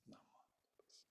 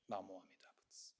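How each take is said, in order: First: Chanted, whisper "Namo Amida Butsu" fading out; chanted, breathe "Namo Amida Butsu" as a whisper. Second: Low, soft chant of Namo Amida Butsu; chanted, murmur "Namo Amida Butsu" low and soft. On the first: Buddha's recitation fades away, whispered chant. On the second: Buddha urges the listener to recite, low soft chant. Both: Acted. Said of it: "the voice of Shakyamuni Buddha saying".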